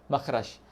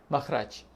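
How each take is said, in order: The two takes are said the same way.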